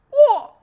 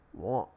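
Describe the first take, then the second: First: Shrieked very high and loud; squeaky what. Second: Said in the usual way. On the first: Real, not acted. Baffled by the code, a high squealed what. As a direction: squeal it in disbelief.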